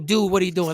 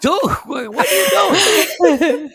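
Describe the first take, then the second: First: It is said in a low, quiet voice. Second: It is said in a loud voice.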